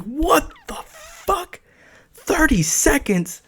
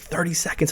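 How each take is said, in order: First: Very high, drawn-out shock without shouting; freaked-out disbelief. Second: Said in the usual way. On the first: Retold or imitated. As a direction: squeal it slowly in acted disbelief. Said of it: "I'm freaking out now". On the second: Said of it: "And she's like".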